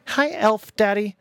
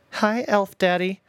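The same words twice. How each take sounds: First: High, slow singsong tease; sly high taunt, stretched slow; mocking taunt. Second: High, slow singsong jab; sly high teasing, drawn slow; mocking taunt again. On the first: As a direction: drag it out to needle him. Son mocking father. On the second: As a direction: stretch it out to get under his skin. Son repeats taunt.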